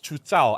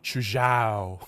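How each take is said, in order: First: The name is said with Mandarin sounds. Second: The name is said with English sounds. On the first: The speaker calls it right. "But it's Chu Zhao, I think" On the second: The speaker calls it wrong. "if you're in English, you pronounce Chu Zhao"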